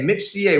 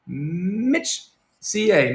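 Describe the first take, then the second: First: Said in the usual way. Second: Drawn-out call. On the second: Real, not acted.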